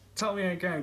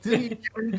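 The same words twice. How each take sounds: First: It is said in the first voice tried. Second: It is said in a changed character voice. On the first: The speaker calls it wrong. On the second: The speaker calls it right.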